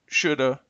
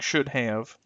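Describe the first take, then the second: First: The words blend into one short reduced form. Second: Both words are said fully and separately. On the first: "reduced to" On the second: "the original forms"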